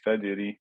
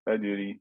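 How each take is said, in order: First: The j sound is soft and weak. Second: The j sound is soft and weak.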